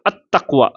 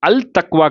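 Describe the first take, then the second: First: The l merges into a doubled t sound. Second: The article's l sound is clearly pronounced. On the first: The speaker calls it right. "அத் தக்வா அப்படின்னு உச்சரிக்கும்" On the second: The speaker calls it wrong. "அல் தக்வா கிடையாது"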